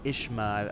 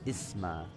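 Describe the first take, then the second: First: The consonant before the m sounds like 'sh'. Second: The consonant before the m sounds like 's'. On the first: The speaker calls it wrong. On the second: The speaker calls it right.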